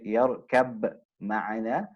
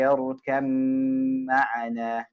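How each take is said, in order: First: The b is pronounced separately before the m. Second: The b is merged completely into a doubled m. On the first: The speaker calls it wrong. "you don't say yarkab ma'ana" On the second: The speaker calls it right. "It joins, it merges into the meme"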